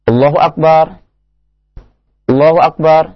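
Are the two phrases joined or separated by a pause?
separated. Each phrase is said separately with a pause between. The speaker calls it wrong. "menyelisih sunnah orang adzan seperti ini"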